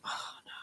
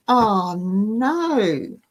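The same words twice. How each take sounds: First: Breathy near-silent whisper of dismay. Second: Half-groaned dismay, barely out loud. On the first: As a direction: whisper it to yourself, caught out. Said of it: "I was like". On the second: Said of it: "I almost groaned out loud". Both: Retold or imitated.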